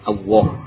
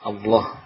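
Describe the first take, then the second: First: A w sound replaces the l entirely. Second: A w sound is slipped in before the l. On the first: "mengganti lam dengan wawu" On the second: "menyisipkan huruf wawu"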